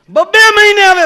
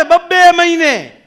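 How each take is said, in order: First: Mock shout. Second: Loud and high, slow; mock shout, slowed. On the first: Repeated phrase in the rant. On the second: Doctor repeating his complaint slowly, loud and high. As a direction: stretch out બબ્બે મહિને while yelling.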